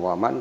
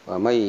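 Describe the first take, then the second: First: The final n is pronounced clearly. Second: The final n merges into a y sound. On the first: The speaker calls it wrong. "bukan waman" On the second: The speaker calls it right. "Ini idgham wamai bukan waman tapi wamai"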